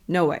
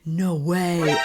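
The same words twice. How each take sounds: First: It sounds like a firm refusal. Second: It sounds shocked and disbelieving. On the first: The speaker refuses. "No, I refuse" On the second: The speaker cannot believe it. "Oh my God, what?"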